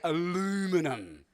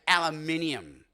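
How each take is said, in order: First: It is said the American way, four syllables. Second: It is said the Australian way, five syllables.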